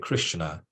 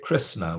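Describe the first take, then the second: First: The sibilant is an 'sh' sound. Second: The sibilant is a plain 's' sound. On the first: The speaker calls it right. "we say Krishna" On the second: The speaker calls it wrong. "we would never say Krishna"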